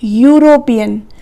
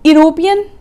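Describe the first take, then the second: First: The word begins with a Y consonant sound. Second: The word begins with a plain vowel sound. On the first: The speaker calls it right. "हमारे ई की sound य निकल रही है" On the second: The speaker calls it wrong. "यूरोपियन नहीं"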